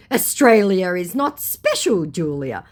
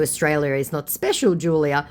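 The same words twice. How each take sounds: First: Slow, louder, raised mock voice; mocked scammer. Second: Said in the usual way. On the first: Scammer belittles her country, mocking. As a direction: spell out the put-down mockingly.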